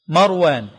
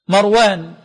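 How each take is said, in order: No difference in how they are said.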